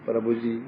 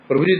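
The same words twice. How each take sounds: First: It is said softly and humbly. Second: It is said harshly and arrogantly. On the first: The speaker feels real reverence. The speaker calls it right. "विनय भाव से" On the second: The speaker's heart is hard and threatening. The speaker calls it wrong. "हृदय कठोरता है"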